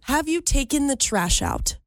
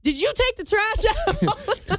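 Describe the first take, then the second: First: Precise, ladylike enunciation; prim and proper. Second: High, drawn-out demanding question; regular [name]. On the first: Pretend. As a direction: say it primly, every word neatly pronounced. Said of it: "Prim and proper". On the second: Shown as a demonstration. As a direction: nag him about a chore, loose and high-pitched. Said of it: "regular [name], I'd be like".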